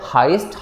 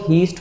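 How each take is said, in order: First: The vowel sounds like 'eye'. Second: The vowel sounds like 'ee'. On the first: The speaker calls it right. "Right pronunciation है हाइस्ट" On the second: The speaker calls it wrong. "कुछ लोग तो इसको हीस्ट बुलाते हैं"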